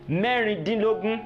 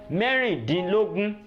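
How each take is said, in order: Both takes have the same delivery.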